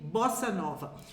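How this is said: It is pronounced with Brazilian Portuguese sounds. "mais en fait, on dit bossa nova"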